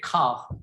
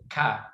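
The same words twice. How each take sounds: First: It is said with a British accent. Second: It is said with an American accent.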